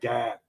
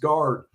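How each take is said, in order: First: The r is dropped, in a Boston accent. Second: The r is pronounced, in a standard accent. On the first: "his accent tripped up an offensive lineman" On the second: "someone had to explain he means guard"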